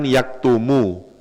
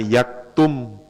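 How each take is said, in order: First: The word ends on a short u vowel. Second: The word ends on the consonant m. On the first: "aslinya kan yaktumu. Aslinya dom" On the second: "harus dibaca sukun. Maka bunyinya yaktum"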